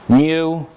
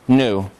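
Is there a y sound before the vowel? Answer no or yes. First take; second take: yes; no. First: A y sound comes before the oo vowel. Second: The oo vowel comes with no y sound. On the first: "this last syllable has ya in it" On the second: "this syllable does not have ya in it"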